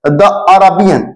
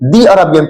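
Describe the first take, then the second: First: 'The' has a short vowel, like 'thuh'. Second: 'The' has a long vowel, like 'thee'. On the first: The speaker calls it wrong. "द नहीं पढ़ेंगे" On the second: The speaker calls it right. "दी Arabian पढ़ेंगे"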